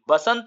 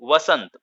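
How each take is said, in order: First: The word begins with a b sound. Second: The word begins with a v sound. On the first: The speaker calls it wrong. "बसंत नहीं" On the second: The speaker calls it right. "वसंत ऋतु होती है"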